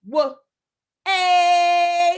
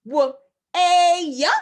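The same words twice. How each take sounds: First: Short "W", then "A" held long and loud as one sound; two-sound breakdown. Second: "W", long "a", then an extra "yuh"; wrong breakdown demo. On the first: Teacher models two sounds for the word, two-sound breakdown. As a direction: say "W" quick, stretch "A" with no "yuh". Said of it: "only have two fingers up for this word". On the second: Teacher asks class is it like this, wrong breakdown demo. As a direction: sound out "W, a" with "a" held loud and a tacked-on "yuh". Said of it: "Is it like this?". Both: Shown as a demonstration.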